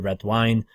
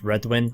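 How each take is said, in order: First: The second part sounds like 'wine'. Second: The second part sounds like 'win'. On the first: "Red wine's probably the correct way because they are known for their wine" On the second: "I've always said Redwin"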